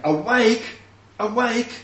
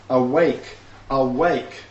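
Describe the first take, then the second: First: Loud, high wake-up call; ringing divine summons; God calling out. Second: Both words stressed and firm, a little louder; emphatic reading. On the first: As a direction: shout it like rousing a sleeper. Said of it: "if God is saying". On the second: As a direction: read it out as a firm command. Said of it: "It's emphatic". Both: Shown as a demonstration.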